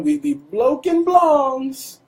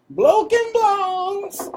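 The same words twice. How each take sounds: First: Slow, high, strung-out drawl; drawn-out stoner voice. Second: Very slow, very high sing-song drawl; exaggerated stoner drawl. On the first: Pretend. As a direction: stretch it like a stoner. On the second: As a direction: stretch it out even further, high. Repeated, even more drawn.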